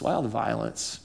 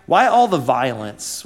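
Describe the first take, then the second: First: Much softer, almost under the breath; hushed repeat, lower pitch; quiet echo. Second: Said in the usual way. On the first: Real, not acted. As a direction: let the question sink down low. Repeated question, second softer.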